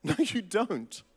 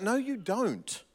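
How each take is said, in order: First: Laughing repeat. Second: Slow flat denial. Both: Real, not acted.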